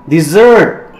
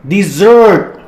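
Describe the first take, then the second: Both takes have the same delivery.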